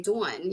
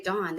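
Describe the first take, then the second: First: "Dawn" with a gliding "doo-un" vowel; New Jersey "Dawn", rounded and gliding; New Jersey pronunciation. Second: "Dawn" said the standard way, one vowel; unaccented "Dawn"; plain pronunciation. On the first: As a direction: stretch "Dawn" into "dwawn". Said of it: "they say Dawn". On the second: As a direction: say "Dawn" without the regional glide. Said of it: "they don't say Dawn". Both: Shown as a demonstration.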